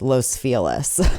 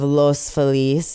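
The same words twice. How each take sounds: First: The name is said with an Americanized pronunciation. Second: The name keeps its original Spanish pronunciation. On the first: This is how locals actually say it. The speaker calls it wrong. "for whatever reason we Americanize them" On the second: This is how the name should be said. The speaker calls it right. "Instead of Los Feliz"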